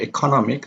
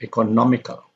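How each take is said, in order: First: "economic" with stress on its CO syllable. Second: "economical" as eco-NOM-ical; third-from-last stress. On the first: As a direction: lean on CO in "economic". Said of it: "then the stress is on". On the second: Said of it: "the stress is on the third syllable". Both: Shown as a demonstration.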